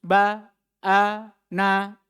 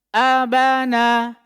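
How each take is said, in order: First: The syllables are split apart with pauses. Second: The syllables run together without pauses. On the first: The speaker calls it wrong. "Tidak lagi diputus-putus" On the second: The speaker calls it right. "Cara bacanya juga harus bersambung"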